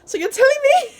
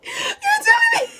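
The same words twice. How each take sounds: First: Much higher and louder, outraged disbelief; betrayed disbelief. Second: Shrieked through laughter, very high and loud; laughing outraged shout. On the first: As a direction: hit it like a kid who has just found out she was lied to. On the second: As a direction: crack up while yelling it in mock betrayal. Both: Retold or imitated. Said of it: "I felt betrayed".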